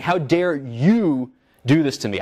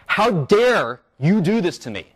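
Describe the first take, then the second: First: Slow, understated mock outrage; restating the angry words calmly, slowed down; indignant quote. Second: Slow, higher mock indignation; a lecturer voicing his own outrage, half-acted; indignant quote. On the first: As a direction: say it as if addressing the attacker, lightly. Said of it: "I'm saying". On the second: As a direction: act out resentment without shouting. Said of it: "capture my reactive attitudes in words".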